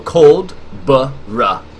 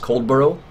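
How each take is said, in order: First: The ending is said as a short 'buh-rah'. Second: The ending is said like the word 'borough'. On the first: The speaker calls it right. "That's how he, he, broke, he broke it down to say" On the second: The speaker calls it wrong. "I would have pronounced this farm as Coldborough, ... which is not the correct pronunciation"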